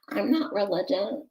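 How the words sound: It is said in an imitated, put-on voice.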